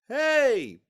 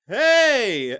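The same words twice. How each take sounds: First: The word is said softly with low energy. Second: The word is called out loudly and intensely. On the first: The speaker calls it wrong. "you wouldn't say, hey, hey, because you wouldn't be heard" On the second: The speaker calls it right. "It'd be like, hey, hey, hey. Now, that's not yelling. That's a controlled way to use your voice in a really intense way"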